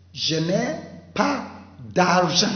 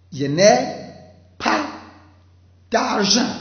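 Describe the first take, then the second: First: Said in the usual way. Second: "Je n'ai" loud, then "pas", then "d'argent." higher, each split by pauses; spaced model sentence. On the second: Shown as a demonstration. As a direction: model it word by word for the class.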